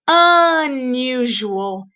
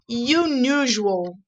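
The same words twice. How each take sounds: First: The word begins with an "uh" sound. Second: The word begins with a "you" sound. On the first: The speaker calls it right. "We say unusual. The sound is a, uh, uh" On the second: The speaker calls it wrong. "We don't say unusual"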